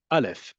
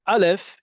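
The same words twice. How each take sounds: First: Said in the usual way. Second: "Aleph" started with a clear catch in the throat, higher and louder; glottal-stop Aleph. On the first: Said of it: "Aleph is a pause when it's in a stressed syllable". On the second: Shown as a demonstration. Teacher showing the class the stop in "Aleph", said higher and louder. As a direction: cut the air off before the A of "Aleph", said high and loud. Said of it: "Do you hear that?".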